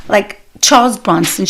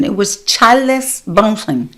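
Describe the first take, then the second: First: Said in the usual way. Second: "Charles" split into two syllables, Char-les; mother's accent. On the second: Retold or imitated. Comic imitating her mother mangling "Charles". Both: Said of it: "She never said Charles Bronson".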